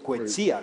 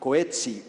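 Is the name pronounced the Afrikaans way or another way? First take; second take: Afrikaans; another way. First: The name is pronounced the Afrikaans way. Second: The name is not pronounced the Afrikaans way.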